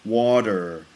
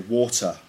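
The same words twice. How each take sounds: First: The middle consonant sounds like a D in an American accent. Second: The middle consonant is a clear T in a British accent. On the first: "In American English, they pronounce it with a D sound. So they'd say" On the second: "In England, we say"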